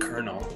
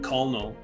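First: The word is said like 'kernel'. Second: The word is said the way it is spelled. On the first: The speaker calls it right. "not colonel" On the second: The speaker calls it wrong. "for a long time in my head, I pronounced it colonel"

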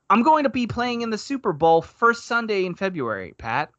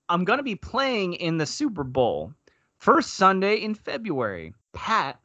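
First: 'Pat' is joined to the end of the sentence. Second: A break falls before 'Pat', which starts anew.

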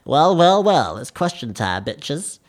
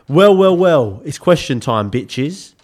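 First: It is said in a put-on character voice. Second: It is said in his normal voice.

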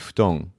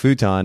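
First: It is said with a Japanese pronunciation. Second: It is said with an American pronunciation. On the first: The speaker calls it right. "It's actually" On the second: The speaker calls it wrong. "It's not"

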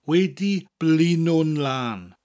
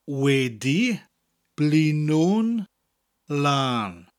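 First: It is said at normal speed. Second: It is said slowly.

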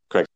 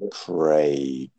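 First: The name is said quickly and briefly. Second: The name is drawn out very slowly. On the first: "You have to say it much quicker" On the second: "now you've just taken the intro above a minute"

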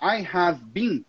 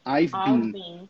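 First: The word 'have' is said in full. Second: The word 'have' is contracted to 've. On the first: This is the more formal form. "ao invés de falar I have been" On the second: This is the more informal form. "você pode simplesmente falar I've been"

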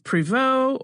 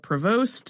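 First: The name is said with a French pronunciation. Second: The name is said with an American pronunciation. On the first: "depending on how you pronounce it, if you're French or American" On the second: "depending on how you pronounce it, if you're French or American"

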